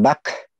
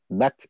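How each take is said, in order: First: The final consonant is released with exaggerated force. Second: The final consonant is released lightly and naturally. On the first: The speaker calls it wrong. "itu terlalu berlebihan" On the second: The speaker calls it right. "seperti alami"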